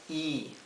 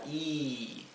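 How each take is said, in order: First: The vowel is said short. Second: The vowel is held longer. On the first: "la I nuestra" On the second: "como una I más larga"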